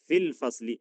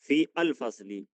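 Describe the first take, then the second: First: Fi and al are merged into one syllable, fil. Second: Fi and al are said as separate words. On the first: The speaker calls it right. "एक तरीका है बोलने का फिल फसली" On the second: The speaker calls it wrong. "एक तरीका है बोलने का फी अल फसली"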